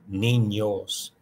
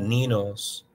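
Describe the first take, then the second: First: The middle consonant is a nasalized ñ sound. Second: The middle consonant is a plain N sound. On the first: The speaker calls it right. "it's like a nasalized sound" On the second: The speaker calls it wrong. "It's not ninos"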